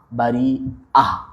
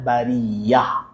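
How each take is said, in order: First: A glottal stop is heard before the last syllable. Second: A y sound is heard before the last syllable. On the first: This is the original form of the word. "dia sebenarnya asal daripada bari'ah" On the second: This is the softened form of the word. "hamzah tu jadi ditukar jadi ya, maka jadilah bariyah"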